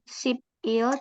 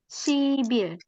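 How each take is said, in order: First: The middle consonant is a clear p sound. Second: The middle consonant is a voiced b sound. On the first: The speaker calls it wrong. "bukan sipil" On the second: The speaker calls it right. "tapi sibil"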